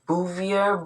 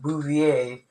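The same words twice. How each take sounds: First: The name is said with an English accent. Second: The name is said with a French accent. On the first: The speaker calls it wrong. "I could say Bouvier" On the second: The speaker calls it right. "pronounced with a French accent, like Bouvier"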